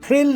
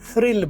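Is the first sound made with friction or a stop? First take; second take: stop; friction. First: The first sound is a hard stop. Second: The first sound is soft friction. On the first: The speaker calls it wrong. "नहीं बोलना" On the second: The speaker calls it right. "बोलना है"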